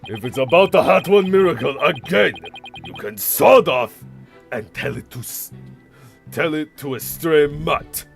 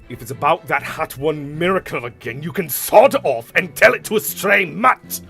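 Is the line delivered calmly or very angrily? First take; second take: calmly; very angrily. First: The line is said with moderate irritation. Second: The line is said very angrily, voice breaking.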